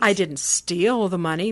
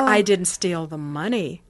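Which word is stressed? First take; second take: steal; money. First: The word steal is stressed. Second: The word money is stressed. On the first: The money was taken some other way, not stolen. "meaning, well, maybe I borrowed it" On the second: Something other than the money was stolen. "That inflection means, well, I stole something else, not the money"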